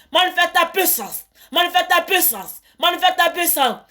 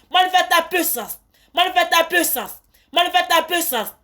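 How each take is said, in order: The two takes are said the same way.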